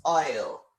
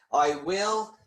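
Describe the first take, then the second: First: "I'll" merged into one falling syllable; contracted form. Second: "I will" as two separate words; full uncontracted form. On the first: Teacher showing learners the contraction, "I'll" as one syllable. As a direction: run it together as "I'll". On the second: Teacher showing the form before contraction, "I will" in full. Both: Shown as a demonstration.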